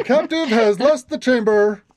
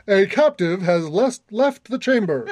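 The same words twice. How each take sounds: First: Booming announcer voice, laughing at first; magically amplified voice. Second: Booming alarm announcement; deep booming voice. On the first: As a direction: boom it out like an alarm. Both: Acted. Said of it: "A deep booming voice says".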